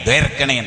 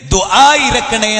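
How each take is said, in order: First: The two words are slurred together into one. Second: The two words are said fully and separately. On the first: "ദ്വേരക്കണേ ദ്വേരക്കണേ മറ്റോ കേട്ടാ അറിയോ" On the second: "ഇത് ദുആ ഇരക്കണേ എന്ന് പറഞ്ഞാൽ"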